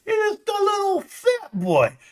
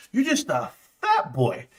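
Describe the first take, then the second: First: Very high, squeaky teasing voice; mocking baby-talk. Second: Said in the usual way. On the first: Streamer belittling a viewer, high mocking squeak. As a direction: taunt in a drawn, tiny high-pitched voice.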